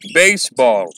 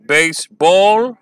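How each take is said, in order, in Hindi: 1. Stress पहले syllable पर है। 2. स्ट्रेस दूसरे सिलेबल पर है। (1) "आप नोटिस करेंगे बेसबॉल में पहला सिलेबल स्ट्रेस्ड है।" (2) "आयम्बिक मीटर में प्रोनाउंस करने की कोशिश करता हूं तो मैं कुछ ऐसा बोलूंगा जो कि अननेचुरल होगा"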